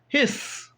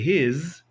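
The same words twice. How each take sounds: First: The word ends with a hissing S sound. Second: The word ends with a buzzing Z sound. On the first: The speaker calls it right. "There's no Z right there. It's a S" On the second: The speaker calls it wrong. "It doesn't say His"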